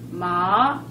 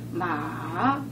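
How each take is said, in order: First: The pitch rises from middle to high. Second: The pitch dips low then rises. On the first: It means hemp. "마 이러면은 그 우리 마 있잖아요. 풀마" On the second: It means horse. "마 그러면은 말 맞자 달려 달리는 말이고"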